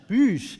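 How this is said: The word is said with a French accent. "im Französischen"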